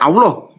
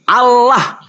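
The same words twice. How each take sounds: First: It is pronounced the Arabic way, unlike the letters. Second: It is pronounced plainly, following the Indonesian letters. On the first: This is the Arabic-script pronunciation. The speaker calls it wrong. "bukan Allah" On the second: This is how the Latin-letter spelling reads. The speaker calls it right. "A L L A H, dibaca Allah"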